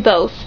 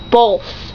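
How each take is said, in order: First: The word has no L sound before the th. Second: The word has an L sound before the th. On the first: "But I can say both" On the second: "with an L in it"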